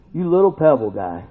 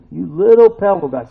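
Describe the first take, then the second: First: Said in the usual way. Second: "You little pebble guy" said louder with a rising tease; "little" stressed in a playful, louder repeat; teasing emphasis. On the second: Shown as a demonstration. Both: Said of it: "repeated louder".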